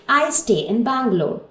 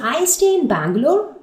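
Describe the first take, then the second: First: It is said as a statement, falling. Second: It is said like a question, rising.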